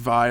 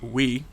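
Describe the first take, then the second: First: The name begins with a V sound. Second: The name begins with a W sound. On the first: The speaker calls it wrong. "as I was pronouncing Vi" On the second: The speaker calls it right. "is apparently pronounced we"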